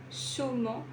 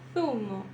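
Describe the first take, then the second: First: The z is pronounced as a plain s sound. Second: The z is pronounced as a lisped th sound. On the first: "Eu pronunciaria assim" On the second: "Preso o som"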